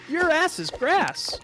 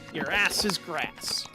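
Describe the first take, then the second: First: It is said in a cartoon Sonic voice. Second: It is said in an old cartoon Eggman voice. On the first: "Sonic sounds different. That'd be like" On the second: "I was literally trying to do an Eggman"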